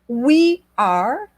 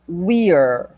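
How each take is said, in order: First: Both words are said separately in full. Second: The words merge into one short syllable.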